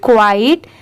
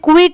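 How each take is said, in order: First: The word has a long gliding vowel, like quite. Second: The word has a short vowel, like quit. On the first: The speaker calls it right. "इसे हम क्वाइट पढ़ेंगे" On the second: The speaker calls it wrong. "इसे क्विट नहीं पढ़ेंगे, बहुत सारे लोग इसे क्विट प्रोनाउंस करते हैं बट वो रॉन्ग होता है"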